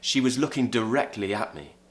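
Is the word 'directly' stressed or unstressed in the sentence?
unstressed. The word 'directly' is said without stress. "If I'm not stressing the word directly so much"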